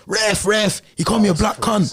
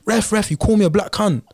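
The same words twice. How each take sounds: First: A light London accent, pitched higher, mocking the opponent; London accent impression. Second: Put-on a light London accent, pitched higher, complaining to the ref; mock the London lad's accent as he appeals to the ref; London accent impression. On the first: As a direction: imitate the London lad's accent calling the ref, a little higher. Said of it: "in his accent". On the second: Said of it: "In, in his accent".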